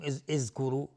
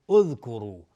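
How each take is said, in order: First: "اذکرو" wrongly opened with i, as izkuru; wrong starting vowel. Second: "اذکرو" loud, opened on u; correct damma start. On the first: Teacher shows the mistake, "اذکرو" as izkuru. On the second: Teacher corrects the mistake, "اذکرو" firmly as udhkuru. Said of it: "چون حرف سوم ضمه هست". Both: Shown as a demonstration.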